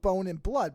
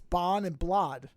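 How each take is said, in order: First: Bone is said with its modern pronunciation. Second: Bone is said with an older Middle English pronunciation. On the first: "this last line is for beasts of bone and blood" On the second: "but it's bon and blood"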